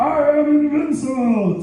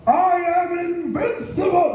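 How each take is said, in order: First: High triumphant boast; higher triumphant yell; triumphant cry retold. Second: Higher triumphant yell; triumphant cry. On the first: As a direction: crow it again as a callback. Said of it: "yeah, I". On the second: Retold or imitated. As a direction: crow it after the winning shot. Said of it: "I went".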